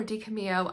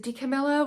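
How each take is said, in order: First: DiCamillo with the double L as a Y glide; alternative pronunciation. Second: DiCamillo with the double L sounded as L; alternative pronunciation. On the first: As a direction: say DiCamillo ending like "mee-yo". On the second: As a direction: say DiCamillo with a clear L. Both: Shown as a demonstration. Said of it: "I never know".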